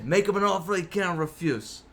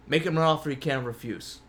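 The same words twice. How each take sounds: First: Bad Italian mobster accent; a weak Godfather-style Italian accent. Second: Said in the usual way. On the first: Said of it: "My Italian accent, just as bad as my Texan accent". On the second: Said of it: "My Italian accent".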